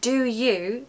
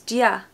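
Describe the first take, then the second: First: Both words are pronounced fully and separately. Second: The words merge into one short syllable. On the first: "Here we've got do you becomes dia" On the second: "becomes dia"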